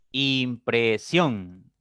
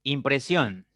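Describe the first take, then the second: First: "Impresión" drawn out very slowly as Im - pre - sión; teacher slowly sounding out "Impresión" beat by beat; syllable by syllable. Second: Said in the usual way. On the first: Shown as a demonstration. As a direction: split "Impresión" into three long syllables. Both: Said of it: "Tiene tres sílabas".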